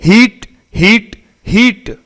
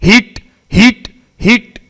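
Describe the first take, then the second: No difference in how they are said.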